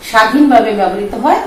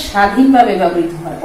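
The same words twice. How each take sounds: The two takes are said the same way.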